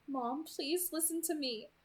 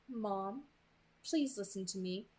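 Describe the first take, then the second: First: Slow, higher plea; pleading. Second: Measured, understated delivery; feed the words evenly for repeating; dictating captor. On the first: Bella repeats the words to her mother, pleading. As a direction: beg gently to be heard. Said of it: "My voice pleaded". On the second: Captor dictates words to Bella, evenly controlled. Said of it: "please say". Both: A narrator's reading.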